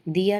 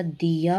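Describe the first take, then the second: First: दिया with a short first i; wrong pronunciation. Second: दिया stretched slowly, dee-yaa; correct pronunciation. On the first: Teacher showing the error, दिया with short i. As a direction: pass quickly over the i in दिया. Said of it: "नहीं होता". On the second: Teacher correcting the word, दिया slow and stretched. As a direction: draw out both vowels of दिया. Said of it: "होता है". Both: Shown as a demonstration.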